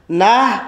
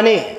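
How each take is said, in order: First: "نه" said as "na", open a vowel; variant pronunciation. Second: "نه" said as "ne", with an e vowel; variant pronunciation. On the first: Teacher contrasting two pronunciations, "نه" said as "na". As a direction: say "نه" with an a sound, drawn out. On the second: Teacher contrasting two pronunciations, "نه" said as "ne". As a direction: say "نه" with an e sound instead of a. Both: Shown as a demonstration. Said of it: "در تلفظ است".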